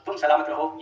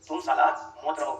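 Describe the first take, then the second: First: Salamat is said as one smooth word. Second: The word is split, ending in 'maut'. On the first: Stay safe and well. The speaker calls it right. "शायरी के बोल थे" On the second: Whether you live or die does not matter. The speaker calls it wrong. "उन भाई साहब ने किस तरीके से बोला"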